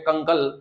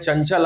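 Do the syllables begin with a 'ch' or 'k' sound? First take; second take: k; ch. First: The syllables begin with a k sound. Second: The syllables begin with a ch sound. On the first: The speaker calls it wrong. "तो भाई झगड़ा हो जाएगा" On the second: The speaker calls it right. "नॉन scientific term में आप बोल सकते हो उसको चा"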